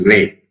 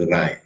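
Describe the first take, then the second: First: The name is said like the word 'ray'. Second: The name is said like the word 'rye'. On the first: The speaker calls it wrong. "should not be pronounced as Ray" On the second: The speaker calls it right. "It should be pronounced as Rai"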